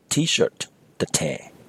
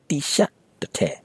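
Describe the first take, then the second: First: T-shirt is said with English sounds, like tee-shirt. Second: T-shirt is said with Burmese sounds, like tisha. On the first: "with proper English pronunciation" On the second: "the Burmanized pronunciation of the English word T-shirt"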